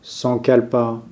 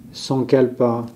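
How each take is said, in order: Both takes have the same delivery.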